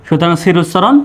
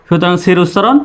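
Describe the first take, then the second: The two takes are said the same way.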